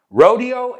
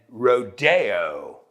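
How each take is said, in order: First: The stress is on the first syllable. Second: The stress is on the second syllable. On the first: It names the cowboy event held in Texas. "Rodeo en Texas" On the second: It names the famous shopping street. "hay que decirlo así, con Rodeo Drive"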